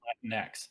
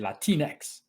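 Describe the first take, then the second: First: It is said in a plain English accent. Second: It is said with a passionate Spanish-style accent. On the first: The speaker calls it wrong. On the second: The speaker calls it right. "You have to do it the way they do it... Spanish passion in there"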